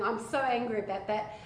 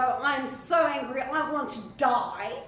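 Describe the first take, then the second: First: Said in the usual way. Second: A touch of angry Jonah, louder; lightly voiced sulking prophet, slowing at the end. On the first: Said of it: "he's saying". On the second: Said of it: "you see Jonah go".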